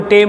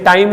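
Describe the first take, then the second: First: The vowel is a plain 'e'. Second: The vowel is the diphthong 'ai'. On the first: This is a simplified form used by less educated speakers. The speaker calls it wrong. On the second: This is the standard form. The speaker calls it right.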